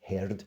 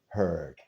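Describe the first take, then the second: First: It is said in a Scottish accent. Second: It is said in a General American accent. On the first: "you just sound Scottish, which is even better" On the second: "In general American English, you'll hear the following"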